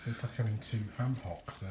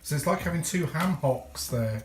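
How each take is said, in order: First: It is said quietly. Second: It is said louder.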